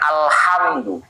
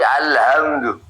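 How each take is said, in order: First: The h is a tight, throaty sound from the throat. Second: The h is a plain, light breathy sound. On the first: "bukan alhamdu"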